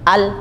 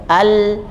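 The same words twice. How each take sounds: First: The l sound is cut off abruptly. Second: The l sound flows on briefly. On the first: The speaker calls it wrong. "bukan begitu yang tepat" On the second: The speaker calls it right. "Yang tepat adalah al, jadi bunyinya mengalir"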